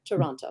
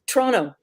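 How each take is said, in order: First: The second t sound is pronounced. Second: The second t sound is dropped. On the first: This is how Americans say it. "I said it American for you all" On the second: This is how locals say it. "You don't you don't pronounce the last T"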